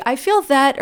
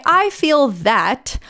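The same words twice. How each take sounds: First: Said in the usual way. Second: "I feel that" drawn out slowly, rising at the end; slow emphasised phrase. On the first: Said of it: "somebody tells me in therapy". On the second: Shown as a demonstration. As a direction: stretch each word of "I feel that" slowly and lift the end. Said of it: "we say".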